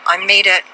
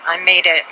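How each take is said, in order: Both takes have the same delivery.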